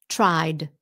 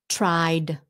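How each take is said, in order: Both takes have the same delivery.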